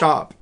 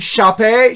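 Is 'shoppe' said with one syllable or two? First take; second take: one; two. First: It is said as one plain syllable. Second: It is said with two syllables, ending in ay. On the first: The speaker calls it right. "no, Mark, that's shop" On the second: The speaker calls it wrong. "I thought it was shop A"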